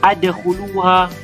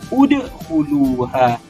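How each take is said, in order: First: The word begins with an 'a' vowel. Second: The word begins with a 'u' vowel. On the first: The speaker calls it wrong. "Tak boleh kita baca adkhuluha dengan baris fathah" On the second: The speaker calls it right. "berbaris dhammah juga, iaitu udkhuluha"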